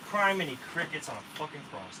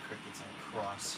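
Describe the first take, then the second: First: An exasperated outburst; exasperated curse. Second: A slow grumble to yourself; softer and lower, dragging the words; low muttered curse. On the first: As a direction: let the frustration out at full voice. Louder frustrated repeat of curse. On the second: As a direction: mutter it low and slow under your breath. Swearing under breath. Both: Real, not acted.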